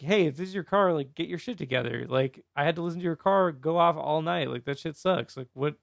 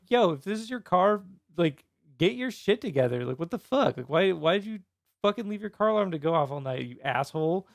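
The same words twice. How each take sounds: First: Toned-down, casual complaint; less aggressive retelling. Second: Mildly heated mock rant; aggressive retelling. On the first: Retold or imitated. Neighbor retelling the milder post about the car alarm, less aggressive. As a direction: grumble it evenly, without much heat. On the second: Angry neighbor retelling a post to the car's owner, mildly aggressive. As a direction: scold the car owner, a touch aggressively. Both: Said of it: "I didn't say it so aggressively".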